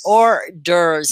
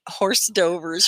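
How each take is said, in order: First: It is said like 'or-derves', with a silent H. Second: It is said like 'horse dovers', sounding the H. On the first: The speaker calls it right. "It sounds like order" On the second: The speaker calls it wrong. "That's what it looks like, but it's not sound. It doesn't sound like that"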